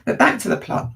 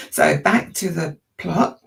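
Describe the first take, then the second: First: Higher, breathy crack on back; voice breaking. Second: Said in the usual way. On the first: Real, not acted. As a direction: voice cracking as it pushes on. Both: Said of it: "My voice has gone a bit quavery there".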